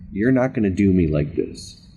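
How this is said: The voice sounds doubtful and unsure. The speaker does not fully believe it yet.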